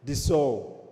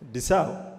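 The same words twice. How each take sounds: First: The 'sau' sounds like the French 'Sauvage'. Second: The 'sau' sounds like the start of 'sausage'. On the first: The speaker calls it right. "that's the name. French it up" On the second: The speaker calls it wrong. "no, no, no, no"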